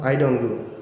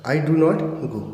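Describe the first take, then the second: First: Do not is shortened to one syllable. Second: Do not is said as two full words.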